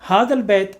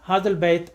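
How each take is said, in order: First: The y glide in bait is dropped. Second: The same.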